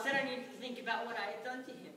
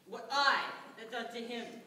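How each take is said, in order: First: Said in the usual way. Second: Indignant echo. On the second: Acted. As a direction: repeat his words in disbelief. Indignant echo of his claim.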